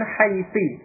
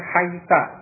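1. Kata itu berakhir dengan vokal i. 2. Kata itu berakhir dengan vokal a. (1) "dengan kasrah huruf akhirnya" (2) "dengan fathah huruf akhirnya"

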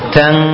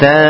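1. Suku kata ini berakhir dengan bunyi sengau ng. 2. Suku kata ini berakhir tanpa bunyi sengau sama sekali. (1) "tapi tang" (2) "tidak ta"

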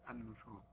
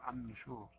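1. الحركة u بعد n واضحة ومستديرة. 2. الحركة u بعد n غير واضحة. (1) "بس النشور" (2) "البعض لا يبين الضم"

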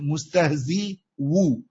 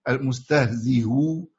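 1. صوت واو كامل يأتي بعد الكسرة. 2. الهمزة مسهَّلة، بين الهمز والواو. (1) "أبدلها واو ... يعني ثقل" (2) "المذهب القياسي فيها الايه التسهيل"

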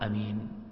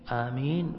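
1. الحركة الأولى تبقى قصيرة. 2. الحركة الأولى تُمَدّ وتطول. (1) "والقصر" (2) "بالمد"

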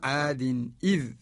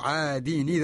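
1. الهمزة تبدأ الكلمة الثانية. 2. الحركة تنتقل إلى الحرف الساكن قبلها، فلا همزة. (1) "يقرأ قالون عادين إذ، يأتي بالهمز" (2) "نقل حركة الهمزة للساكن قبلها ... سقطت الهمزة"

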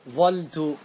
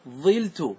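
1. تُحذف إحدى اللامين والحركة الأولى هي a. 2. تُحذف إحدى اللامين والحركة الأولى هي i. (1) "احذف اللام واترك الفاء كما هي على حركتها... مفتوحة" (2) "احذف اللام وتنقل حركة العين... انقلها إلى الفاء"

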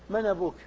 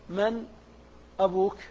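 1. الهمزة محذوفة، وحركتها مُلقاة على 'man'. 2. الهمزة قبل 'abuk' منطوقة بوضوح. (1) "احذفها وانقل حركتها إلى الساكن قبلها" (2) "هل يسمونه التحقيق"

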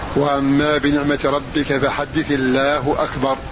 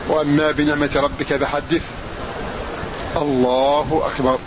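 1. الكلمتان الأخيرتان تتصلان دون وقف. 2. يوجد وقف قبل الكلمتين الأخيرتين. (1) "وصل التكبير بآخر السورة مع الوقف عليه" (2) "أن تقف على آخر السورة والتكبير"

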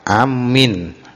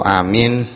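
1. Vokal pertama pendek, bunyi m ganda. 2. Vokal pertama panjang, bunyi m tunggal. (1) "hamzahnya pendek, mimnya ditasdid" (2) "bitahfifi wal maddi"

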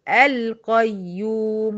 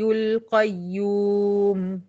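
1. بتبدأ بفتحة في الأول. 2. بتتوصل من غير فتحة في الأول. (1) "لو هبدأ بالقيوم هقول القيوم" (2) "سقطت بتاعت القيوم سقطت"

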